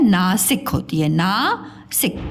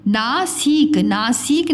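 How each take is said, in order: First: नासिक ending in short, quick sik; सही छोटी इ. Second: नासिक said naa-seek, long ee; गलत लंबी ई. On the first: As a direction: keep si brief in नासिक. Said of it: "छोटी लग जाती है". (नासिक में सि छोटा) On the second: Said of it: "नासिक नहीं होती है". (नासिक को ना-सीक खींचकर) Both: Shown as a demonstration.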